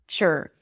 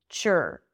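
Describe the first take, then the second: The two takes are said the same way.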